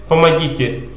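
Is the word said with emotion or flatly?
flat. The word is said flatly, without any emotion. The person does not really need anything. The speaker calls it wrong. "Если человек без чувства будет повторять"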